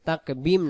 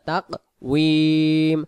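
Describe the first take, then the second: First: The middle consonant is a b sound. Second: The middle consonant is a w sound. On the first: The speaker calls it wrong. "তাকবিম না" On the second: The speaker calls it right.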